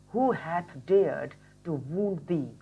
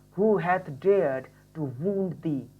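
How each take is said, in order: Both takes have the same delivery.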